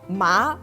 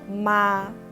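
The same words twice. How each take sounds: First: The pitch rises toward the end. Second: The pitch stays high and level. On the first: It means numb. "ma has the second tone" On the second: It means mom. "the first tone, or 第一声, is called the flat tone"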